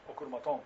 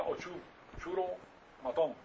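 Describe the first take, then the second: First: "ocurmatón" with a hard k sound; "ocurmatón", stressed on the final -tón; corrected pronunciation. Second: "ochu-churo matón" with a Spanish ch; "ochu-churo matón", ch as in churro; Spanish-style reading. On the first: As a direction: say "ocurmatón" as one word, k in place of ch. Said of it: "pero es ocurmatón". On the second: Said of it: "en español sería". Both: Shown as a demonstration.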